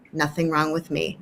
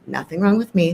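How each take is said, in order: First: Soft mantra. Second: Said in the usual way. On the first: Shown as a demonstration. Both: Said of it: "a mantra that you might suggest".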